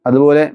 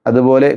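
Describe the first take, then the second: No difference in how they are said.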